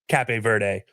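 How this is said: The name is said with a Portuguese pronunciation. "Portuguese pronunciation is"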